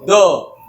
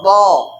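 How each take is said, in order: First: The consonant is light, made with the tongue tip. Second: The consonant is heavy, made with the tongue side. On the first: The speaker calls it wrong. "Bukan yang pakai ujung, Bu. Seperti ini" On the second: The speaker calls it right. "ini sisi lidah nempel ke gigi geraham seperti ini"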